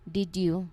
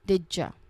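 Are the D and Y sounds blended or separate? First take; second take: separate; blended. First: The D and Y sounds are said separately. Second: The D and Y blend into a J sound. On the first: "The full clear way to say this phrase" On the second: "in natural flowing conversation, the sounds change very much, and it becomes didja"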